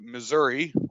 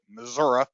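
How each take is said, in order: First: It is said the general, everyday way. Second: It is said the local, native way. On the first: The speaker calls it wrong. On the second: The speaker calls it right.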